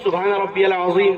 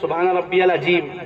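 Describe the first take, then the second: First: The last word is said with a z sound. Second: The last word is said with a j sound. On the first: The speaker calls it right. "जोए से है वो" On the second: The speaker calls it wrong. "जीम निकाल दिया उसमें"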